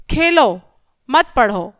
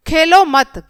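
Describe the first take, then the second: First: Khelo set apart, a clear break before मत पढ़ो; pause after खेलो. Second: खेलो मत run together as one louder phrase, then a stop; pause after मत. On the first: Teacher showing children it means play, pause after Khelo. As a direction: say Khelo, stop briefly, then मत पढ़ो as one phrase. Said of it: "यहाँ खेलने के लिए कहा जा रहा है". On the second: Teacher showing children the comma, खेलो मत said as one unit. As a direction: join Khelo to मत firmly and break after it. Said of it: "खेलो मत के बाद क्या है बच्चों?". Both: Shown as a demonstration.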